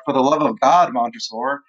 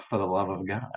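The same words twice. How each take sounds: First: Acted desperation. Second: Soft, low, unmoved reply; quiet mocking echo. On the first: Teacher voices Fortunato begging Montresor for his life, mildly desperate. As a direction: plead with a touch of desperation. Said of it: "like, desperate". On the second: Montresor echoes his victim's plea, quiet and low. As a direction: hand the plea back quietly, lower.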